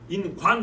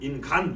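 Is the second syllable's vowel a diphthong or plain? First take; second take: diphthong; plain. First: The second syllable has the wa diphthong. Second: The second syllable has a plain a vowel. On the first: The speaker calls it right. "인관 해야 되는데" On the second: The speaker calls it wrong. "오를 빼고 아니면 인간 이렇게 불러버리는 거죠"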